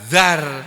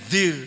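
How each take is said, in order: First: The vowel is an 'a' sound. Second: The vowel is an 'i' sound. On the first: This is the form the text actually uses. "tapi di sini enggak zar" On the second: This is the form the rule predicts. "harusnya bunyinya zir"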